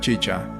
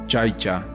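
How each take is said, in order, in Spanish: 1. La primera vocal es un sonido 'ee' simple. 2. La primera vocal es un sonido 'ai'.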